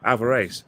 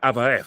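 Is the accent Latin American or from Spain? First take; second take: Latin American; Spain. First: It is said with a Latin American accent. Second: It is said with a Spain Spanish accent. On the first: "in S- Argentina, Mexico, they say Alvarez" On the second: "but in Sp- Spain they say Alvarez"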